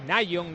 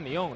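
First: The name starts with a 'nye' sound. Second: The name starts with a 'nee' sound. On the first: The speaker calls it wrong. "no es Nayon" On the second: The speaker calls it right. "Se pronuncia así"

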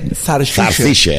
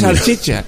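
First: The word is said with a Jerez pronunciation. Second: The word is said with a standard pronunciation. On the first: The speaker calls it right. "En Jerez se dice zarchicha" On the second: The speaker calls it wrong. "no se dice salchicha"

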